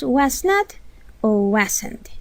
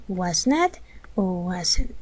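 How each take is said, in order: First: Said in the usual way. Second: Was not o wasn't, slowed and softened, each word given room; slow repeat. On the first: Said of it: "teacher names the two forms". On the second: Shown as a demonstration. Teacher repeating both forms slowly for the class. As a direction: spell it out slowly a second time. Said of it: "Es lo mismo".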